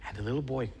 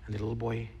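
The two takes are said the same way.

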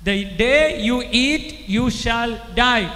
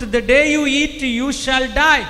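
First: Very slow, spaced repeat; preacher slowing down so the hall can repeat; slow, drawn-out repeat. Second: Loud command. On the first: Real, not acted. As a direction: spell it out slowly for the crowd. Repeated slowly for the crowd. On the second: Acted. Quote said as God.

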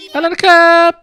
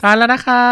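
First: Put-on high, loud little-boy voice; boy's mealtime line. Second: Slightly raised, polite female role; mother's mealtime line. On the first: Boy to family before the meal, high loud boy voice. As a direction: pipe up loudly as a boy before eating. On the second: Acted. Mother to family before the meal, lightly raised polite voice.

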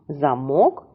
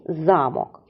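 First: Замок with rising МОК; za-MOK, left rising; stress on second syllable. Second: Замок with stressed ЗА, falling end; ZA-mok, falling; stress on first syllable. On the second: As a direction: put the weight on за in замок. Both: Shown as a demonstration. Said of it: "наголос змінив".

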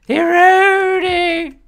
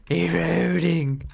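First: Drawn-out high call. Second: Said in the usual way. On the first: Shown as a demonstration.

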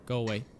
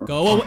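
First: Much softer "Go away", low. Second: Said in the usual way. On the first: Real, not acted. Gamer shooing the monster, soft mutter. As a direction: mutter it under the breath.

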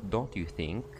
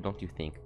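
First: Don't you think with a teasing rising end; mocking rise. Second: Said in the usual way. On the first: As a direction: tilt "don't you think?" up like a sly question. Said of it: "She likes the word "don't you think". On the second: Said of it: "She likes the word".

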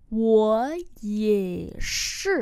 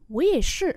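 First: Very slow, three long syllables; slow model reading. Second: Said in the usual way. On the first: Shown as a demonstration. Teacher repeating a short reply for learners, very slowly. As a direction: draw out every word.

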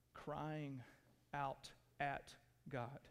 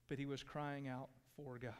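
First: At God said softly, leaning on at; crying out AT God; stress on at. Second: For God leaned on, softly; crying out FOR God; stress on for. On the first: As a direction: mark at as the key word. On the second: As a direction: land on for, not at. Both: Shown as a demonstration. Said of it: "there's a big difference in that".

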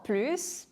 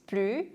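First: "plus" with a clear final S; S pronounced. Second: "plus" as "plu", no final S; silent S. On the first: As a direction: say "plus" ending on an audible hiss of S. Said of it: "S가 발음이 되고". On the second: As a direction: drop the S of "plus", ending on the vowel. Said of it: "S가 발음이 되지 않고". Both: Shown as a demonstration.

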